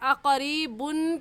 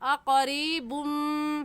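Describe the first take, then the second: First: The word ends with a clear n sound. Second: The final n merges into an m sound. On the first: The speaker calls it wrong. "अक़रीबुन कहना गलत होगा" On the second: The speaker calls it right. "सही है अक़रीबुम"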